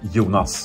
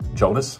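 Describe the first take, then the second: First: It is said the Swedish way, long O. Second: It is said the English way. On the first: "here in Sweden... we pronounce it with a long O" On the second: "internationally, it would be like"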